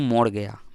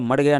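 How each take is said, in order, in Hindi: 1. इसे बंगाली लहजे में बोला गया है। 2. इसे सामान्य हिंदी लहजे में बोला गया है। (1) "बंगाली भाषा में बोलेंगे" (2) "मर गया नहीं"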